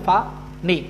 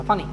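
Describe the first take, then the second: First: ফা, নি broken into two separate syllables with a pause between; split into syllables. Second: Said in the usual way. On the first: Shown as a demonstration. Teacher showing students how not to say it, ফা, নি split in two. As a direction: say ফা, then নি, as two detached beats. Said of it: "এভাবে বলতেছেন না". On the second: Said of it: "একবারই".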